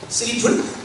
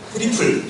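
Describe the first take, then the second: First: The word begins with an S sound. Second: The word begins with a T sound. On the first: The speaker calls it wrong. "쓰리플 안 하죠" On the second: The speaker calls it right. "트리플 할 때 트리플"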